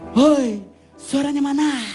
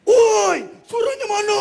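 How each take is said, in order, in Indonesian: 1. Teriakannya berdesah dengan bunyi h yang kuat. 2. Teriakannya serak dengan bunyi r yang digulung. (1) "Kalau dangdut itu lebih banyak H-nya" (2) "Kalau rock itu lebih banyak R-nya"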